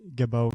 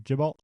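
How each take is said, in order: First: The name ends with an 'oh' sound. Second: The name ends with an 'alt' sound. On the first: The speaker calls it right. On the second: The speaker calls it wrong. "I think we've been pronouncing it G- Gibalt"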